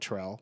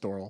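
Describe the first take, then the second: First: The name is said as two syllables, Terrell. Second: The name is said as one syllable, Thorl. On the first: This is how people in the home state say the name. The speaker calls it wrong. "Everyone called her Terrell" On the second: This is how the name's owner says it. The speaker calls it right. "my name's Thorl. That's her name"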